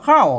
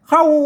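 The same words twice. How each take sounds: First: The word carries an ordinary standard falling tone. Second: The word carries a special, non-standard falling tone. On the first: This is how standard Thai says it. "เสียงโทปกติ" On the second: This is how the Tai Yuan dialect says it. "เสียงโทพิเศษ"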